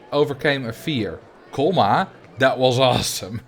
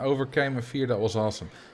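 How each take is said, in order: First: There is a clear break after fear. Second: It runs on with no break after fear. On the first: Overcoming the fear was awesome. The speaker calls it right. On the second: The fear itself was awesome. The speaker calls it wrong. "I pronounced that wrongly"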